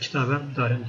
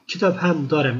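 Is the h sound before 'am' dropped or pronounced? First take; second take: dropped; pronounced. First: The h sound of ham is dropped. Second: The h sound of ham is pronounced.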